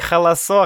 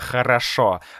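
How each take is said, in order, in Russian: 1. Звук R заменяется звуком L. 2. Слово произносится с чётким звуком R. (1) "я не могу сказать «р»" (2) "вместо «хорошо»"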